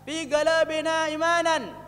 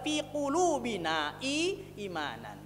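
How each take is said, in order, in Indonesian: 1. Kata itu dimulai dengan bunyi g. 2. Kata itu dimulai dengan bunyi q yang dalam.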